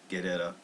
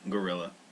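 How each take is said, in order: First: The word is said with French-style sounds. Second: The word is said like English 'gorilla'. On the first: "So I guess they're doing it the French" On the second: "Like we mispronounce it in English"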